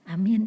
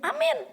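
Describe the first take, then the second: First: It is said hesitantly and unsure. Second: It is said confidently and loudly.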